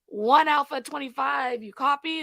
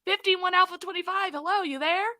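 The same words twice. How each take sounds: First: Police radio. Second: Higher, louder repeated radio call; urgent police radio. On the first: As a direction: call the unit like a dispatcher. Dispatcher calling unit on radio. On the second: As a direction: call again, getting worried. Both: Retold or imitated.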